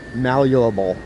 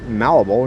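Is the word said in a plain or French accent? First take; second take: French; plain. First: It is said in a mock French accent. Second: It is said in the speaker's plain accent.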